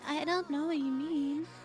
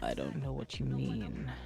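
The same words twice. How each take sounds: First: It is said in a higher, lighter voice. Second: It is said in a deep, menacing voice.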